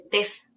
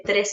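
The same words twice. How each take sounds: First: Tes said with no r after the t; child's omission mispronunciation; r dropped. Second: Said in the usual way. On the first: Shown as a demonstration. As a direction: say tes, leave out the r of tres. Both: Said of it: "hay una omisión".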